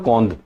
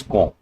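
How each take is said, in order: First: Quand said the English way with a hard d at the end; the mistaken quand, with its final d spoken; wrong pronunciation. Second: Quand said the French way as a nasal kon with a silent d; the correct French quand, ending on a nasal vowel; correct French pronunciation. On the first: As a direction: sound the d in quand like an English word. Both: Shown as a demonstration. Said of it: "It's not quand, it's quand".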